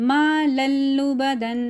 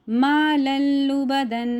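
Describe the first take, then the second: No difference in how they are said.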